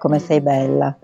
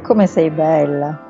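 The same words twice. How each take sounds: First: It is said in a cold tone. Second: It is said in a warm tone.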